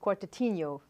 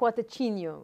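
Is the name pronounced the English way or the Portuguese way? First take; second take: English; Portuguese. First: The name is said with English-style pronunciation. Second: The name is said with Portuguese-style pronunciation. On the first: "I'm trying to say it for the people that can imagine how it's written" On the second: "Or Quartetinho, if you really"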